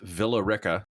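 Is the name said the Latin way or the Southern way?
Southern. It is said the local Southern way. The speaker calls it wrong. "it's pronounced Villa Rica"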